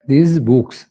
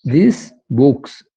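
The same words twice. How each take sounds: First: Said in the usual way. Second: this books spelled out slowly, word by word; slow the words down for learners; careful demo. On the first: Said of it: "repeat at normal pace". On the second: Shown as a demonstration. Teacher models these books for class, slow. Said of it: "teacher demos these books".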